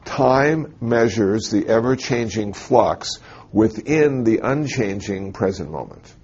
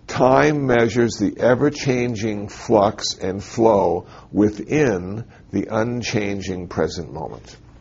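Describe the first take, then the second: First: It is said at normal speed. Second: It is said slowly.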